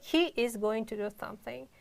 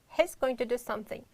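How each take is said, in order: First: He is is said as two full words. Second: He is is contracted to he's. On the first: The speaker calls it wrong. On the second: The speaker calls it right.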